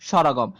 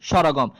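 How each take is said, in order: Both takes have the same delivery.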